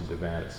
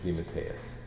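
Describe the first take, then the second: First: The surname is said in a squashed American way. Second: The surname is said with Italian pronunciation. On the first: This is the form the name took in America. The speaker calls it wrong. "Americanized and squashed" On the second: This is the family's original form of the name. The speaker calls it right. "the official Italian pronunciation"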